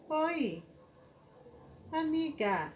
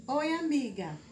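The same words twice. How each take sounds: First: "Oi," then a long pause before "amiga."; pause after Oi. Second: Said in the usual way. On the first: Shown as a demonstration. Teacher showing pupils the comma: "Oi," pause, "amiga.". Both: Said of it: "Será que nesse oi não teria uma pausa?".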